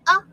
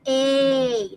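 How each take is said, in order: First: The vowel sounds like the one in cat. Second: The vowel sounds like the one in cake. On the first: "One short sound" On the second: "and long sound is A"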